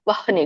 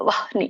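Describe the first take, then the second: First: The h comes first, then the n. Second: The same.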